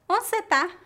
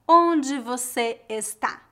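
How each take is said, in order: First: The verb is reduced, in a Mineiro accent. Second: The verb is said in full, not Mineiro-style.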